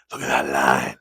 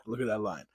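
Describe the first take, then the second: First: Deep voice. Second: Laughing lightly at himself. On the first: Pretend. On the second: Real, not acted. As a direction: chuckle through the words. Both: Admiring his fresh beard line.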